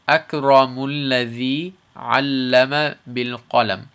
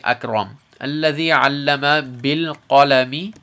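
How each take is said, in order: First: It runs on without stopping after the first word. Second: It stops briefly after the first word. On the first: "if we don't" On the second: "if we stop"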